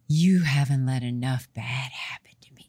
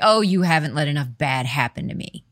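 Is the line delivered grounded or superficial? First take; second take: grounded; superficial. First: It is said in a deep, grounded way. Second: It is said in a light, surface way.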